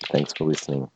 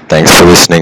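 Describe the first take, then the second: First: It is said very quietly, almost inaudibly. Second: It is said very loudly, almost shouted. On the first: "We can't hear you" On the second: "you don't have to scream it out"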